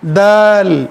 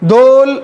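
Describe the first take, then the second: First: The vowel is a plain, light a. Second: The vowel is rounded toward an o sound. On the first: The speaker calls it right. "दाल बारीक बारीक हुरूफ में से है" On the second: The speaker calls it wrong. "दोल नहीं बोलेंगे"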